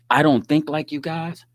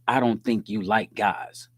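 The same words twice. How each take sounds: First: Said in the usual way. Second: "you like guys" said slowly, spelled out as the misreading; misread version. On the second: Retold or imitated. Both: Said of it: "She had to take it as".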